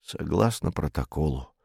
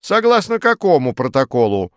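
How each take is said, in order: First: Low, soft, tired reply; weary. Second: Loud, insistent query, well above the tired reply; demanding challenge. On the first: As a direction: answer wearily, with little energy. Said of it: "устало сказал комендант". (устало, тихо и низко) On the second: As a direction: demand to know, pressing hard. Farfurkis challenges the weary commandant. (требовательно, громко, с вызовом) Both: A narrator's reading.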